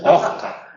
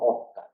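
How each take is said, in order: First: The s sounds like a harsh throaty j. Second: The s becomes a soft breathy h. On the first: "Se llega a confundir con la J" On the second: "propiamente la aspiración sería algo más suave"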